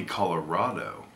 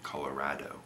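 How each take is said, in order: First: "Colorado" with a broad "ah" in "rah"; -rah-do ending. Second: "Colorado" as color-RAD-o, low and soft; Indiana pronunciation. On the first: Vlogger guessing the other way is right, rah-do ending. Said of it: "I think it might be". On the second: Vlogger testing the Indiana way to themselves, soft rad-o ending. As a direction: try "Colorado" quietly with the a of "cat". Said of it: "'cause people from Indiana". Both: Shown as a demonstration.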